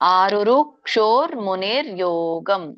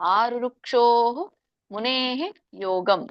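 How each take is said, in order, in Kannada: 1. ಪದಗಳು ಒಂದೇ ಸರಣಿಯಾಗಿ ಒಟ್ಟಿಗೆ ಸೇರಿವೆ. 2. ಪದಗಳು ತಮ್ಮ ಪ್ರತ್ಯೇಕ ಅಂತ್ಯಗಳೊಂದಿಗೆ ಬೇರೆ ಬೇರೆಯಾಗಿವೆ. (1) "ಕೂಡ್ಸಿ ಹೇಳ್ದವ್ರು ನಾನೀಗ ಹೇಳಿದ್ನಲ್ಲ ಆ ತರ ಹೇಳ್ಬೋದು" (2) "ಇಲ್ಲಪ್ಪ ಇದು ಟಫ್ ಆಗತ್ತೆ ಅಂತಂದ್ರೆ"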